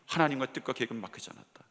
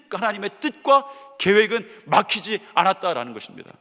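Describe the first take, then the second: First: Softer, lower repetition of 하나님과 뜻과 계획은 막히지 않았다; quiet echo. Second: Louder proclamation with stress on 뜻과; emphatic declaration. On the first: Preacher echoing his own proclamation softly to the congregation. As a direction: let the line settle, hushed and reflective. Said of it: "repeats the declaration quietly". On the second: Preacher proclaiming God's plan is unblocked, loud and emphatic. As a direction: proclaim 하나님의 뜻과 계획은 막히지 않았다 boldly, punching 뜻과. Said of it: "repeats the declaration". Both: Shown as a demonstration.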